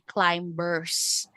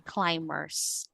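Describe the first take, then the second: First: The b sound is pronounced in the word. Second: The b sound is left silent in the word. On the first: The speaker calls it wrong. "we don't say climbers" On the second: The speaker calls it right. "a word with silent B"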